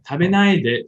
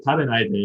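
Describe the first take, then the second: First: Tabenai de said as a feminine plea; feminine request. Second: Said in the usual way. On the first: Shown as a demonstration. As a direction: plead with him not to. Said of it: "the feminine way". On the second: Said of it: "the te form that's kind of common".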